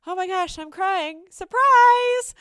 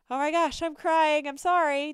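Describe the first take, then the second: First: High, loud outburst ending on a huge "surprise!"; hammed-up, exuberant reveal, last word belted; playful surprise. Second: Raised-voice pretend tearful apology; loud, higher, hammed-up sorry; mock apology. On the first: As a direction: turn the apology into a gleeful announcement. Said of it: "turns into". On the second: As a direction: act out a flustered, apologetic outburst. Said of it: "tempted to say you're sorry".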